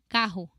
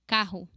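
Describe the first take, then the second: No difference in how they are said.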